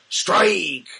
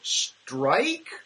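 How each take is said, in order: First: The word is said firmly and with authority. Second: The word is said hesitantly, like a question. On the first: The call is final and not open to doubt. The speaker calls it right. "the umpire goes, ... conveys with authority" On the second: The caller is not certain of the call. The speaker calls it wrong. "he doesn't go"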